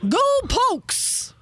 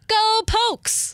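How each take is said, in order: First: It is said lower and more excited. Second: It is said plainly, with less energy.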